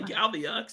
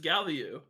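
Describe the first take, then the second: First: The word ends with an audible x sound. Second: The word ends without any x sound. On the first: The speaker calls it wrong. "it's not X. You don't say Galmiux" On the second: The speaker calls it right. "It's Galmiu"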